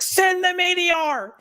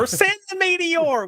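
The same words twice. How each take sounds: First: High, slow, grand proclamation; dramatic proclamation. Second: High hillbilly holler. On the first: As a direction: call it out like a battle cry. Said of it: "We're just gonna be like". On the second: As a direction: yell it out, hillbilly style. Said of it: "a hillbilly accent". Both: Acted.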